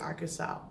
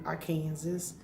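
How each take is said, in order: First: Said in the usual way. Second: Arkansas said as "ar-KAN-zis"; alternate pronunciation. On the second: Real, not acted. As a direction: say Arkansas like "Kansas" with "Ar" in front. Says the state name two ways.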